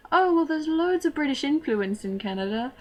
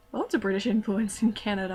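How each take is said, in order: First: Higher, louder put-on British accent. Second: Said in the usual way. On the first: Student explaining herself to classmates, in a fake British accent. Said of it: "I would have to talk to everyone that way". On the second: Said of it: "It's not strictly speaking a lie".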